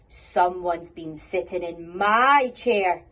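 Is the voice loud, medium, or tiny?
loud. It is said in a very loud voice.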